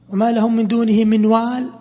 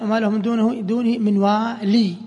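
First: The last word ends without an 'ee' vowel. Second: The last word ends with an 'ee' vowel.

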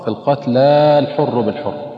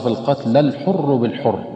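First: The final vowel of al-qatla is held long. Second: The final vowel of al-qatla is dropped short. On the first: The speaker calls it wrong. "والبعض ينطقها خطأ" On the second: The speaker calls it right. "أما إذا وصلنا فإن هذه الألف تحذف"

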